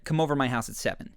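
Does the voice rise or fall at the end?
fall. The voice falls at the end.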